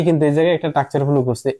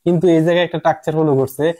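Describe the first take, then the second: First: Same line rattled off quickly; fast repeat. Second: Said in the usual way. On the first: Shown as a demonstration. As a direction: hurry through the restatement.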